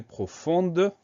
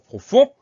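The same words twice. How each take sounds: First: Profonde with the D clearly pronounced; sounded final D. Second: Profond ending on the nasal vowel, D silent; silent final D. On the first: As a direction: let the D ring out at the end of profonde. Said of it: "on va entendre le D muet". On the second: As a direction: leave the D of profond unpronounced. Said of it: "se souvenir de ce D muet". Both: Shown as a demonstration.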